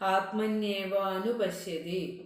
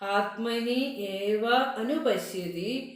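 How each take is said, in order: First: The words are joined together by sandhi. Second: Each word is said separately, unjoined.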